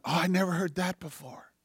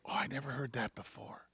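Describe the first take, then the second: First: Soft but lifted wonder; quiet, dawning surprise; retold amazement. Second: Low, very soft wonder; hushed, understated surprise; retold quiet amazement. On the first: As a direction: say it hushed, with the pitch raised from a murmur. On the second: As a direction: murmur it as a private discovery. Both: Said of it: "I just go".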